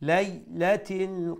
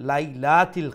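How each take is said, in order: First: The second 'la' vowel is kept short. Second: The second 'la' vowel is stretched long. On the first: The speaker calls it right. "খাটো করে উচ্চারণ করবো" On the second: The speaker calls it wrong. "লা সেকেন্ড লামরে যে জবর একটারে একটু লম্বা করে নেন"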